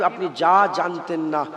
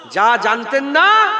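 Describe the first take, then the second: First: Said in the usual way. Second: যা জানতেন না drawn out slowly and louder; slow loud call. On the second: Shown as a demonstration. Preacher leading the crowd to repeat it, slow and loud. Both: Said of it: "একবার জোরে বলেন".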